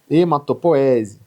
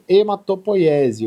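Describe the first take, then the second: First: The middle syllable has a plain 'o' vowel. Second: The middle syllable has the diphthong 'oi'. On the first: "As duas formas" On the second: "Poiese também é correto"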